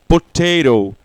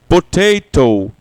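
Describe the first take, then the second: The two takes are said the same way.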